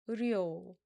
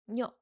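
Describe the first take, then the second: First: The syllable begins with an r sound. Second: The syllable begins with an n sound. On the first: "The second syllable starts with r sound" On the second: "this rear sound changes to neon sound"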